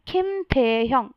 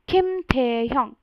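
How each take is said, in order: The two takes are said the same way.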